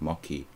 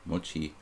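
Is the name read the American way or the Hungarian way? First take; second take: American; Hungarian. First: The name is read with American English sound values. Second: The name is read with Hungarian sound values. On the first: "if I was like American thinking, I would be like mochi" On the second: "in Hungarian this would be like mochi"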